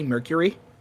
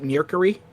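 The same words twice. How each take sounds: First: The word is said the standard way. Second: The word is said with an odd mispronunciation. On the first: The speaker calls it right. "he cannot say Mercury" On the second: The speaker calls it wrong. "he calls it Mercury"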